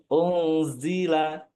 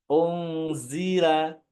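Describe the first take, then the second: No difference in how they are said.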